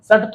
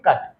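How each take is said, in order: First: The word begins with an s sound. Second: The word begins with a k sound. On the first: The speaker calls it wrong. "सट थोड़ी बोलेंगे ना" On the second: The speaker calls it right. "इसको क्या बोलेंगे, कट"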